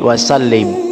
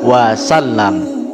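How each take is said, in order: First: The last syllable has an 'i' vowel. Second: The last syllable has an 'a' vowel. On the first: The speaker calls it wrong. "Biasanya kita membacanya" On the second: The speaker calls it right. "Jadi yang benar wasallam"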